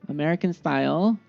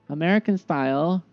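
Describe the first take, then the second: No difference in how they are said.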